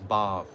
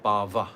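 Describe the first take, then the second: First: The word ends on a consonant sound. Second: The word ends with a final vowel sound. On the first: Spiritual emotion. The speaker calls it right. "The word is bhav" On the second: Material existence. The speaker calls it wrong. "the word is not bhava"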